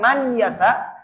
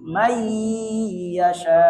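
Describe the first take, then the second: First: The n is pronounced clearly before the y. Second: The n merges into the y with nasalization. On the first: The speaker calls it wrong. "bukan man yasa" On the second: The speaker calls it right. "masuk dengan dengung"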